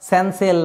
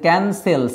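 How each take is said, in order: First: It begins with s and has s in the middle. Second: It begins with k and has s in the middle. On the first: The speaker calls it wrong. "এগুলো হচ্ছে না" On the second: The speaker calls it right.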